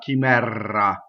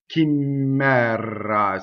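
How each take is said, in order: First: The R is held long, like a double R. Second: The M is held long, like a double M. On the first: "not chimera. That's a common mistake" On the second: "notice that there's no double M. Here's the other one I hear"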